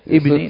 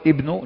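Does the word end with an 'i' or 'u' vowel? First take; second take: i; u. First: The word ends with an 'i' vowel. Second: The word ends with an 'u' vowel. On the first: It describes a noun in the genitive case. "والثانية ابني لأن صفة المجرور" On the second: It describes a noun in the nominative case. "الأول ابنه لأن صفة المرفوع"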